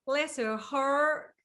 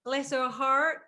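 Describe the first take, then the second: First: Slow drawled "Bless her heart", rising on "heart"; slow Southern drawl. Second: Quick English attempt at "Bless her heart"; "Bless her heart" said at normal speed, Southern rise on "heart"; English try at Southern. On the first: Host copies the guest's Southern phrase, slow drawl. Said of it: "That's better". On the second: Host tries the Southern phrase, plain and quick. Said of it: "No, no". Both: Shown as a demonstration.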